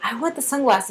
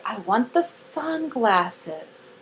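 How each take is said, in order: First: Said in the usual way. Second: Very slow, soft model sentence; much slower. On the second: Shown as a demonstration. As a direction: stretch every word out quietly for a learner. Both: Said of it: "say it slower".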